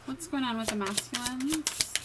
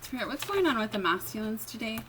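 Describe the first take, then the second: First: A higher, put-on British accent; the same question retried with a British accent. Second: Said in the usual way. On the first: Reader asks Spirit again in a mock British accent. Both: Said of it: "My British accent".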